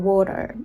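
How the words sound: It is said in an American accent. "アメリカ英語。"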